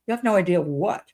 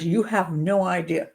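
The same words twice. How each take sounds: First: Said in the usual way. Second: Quoted text, slowly. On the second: Retold or imitated. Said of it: "And then at the end".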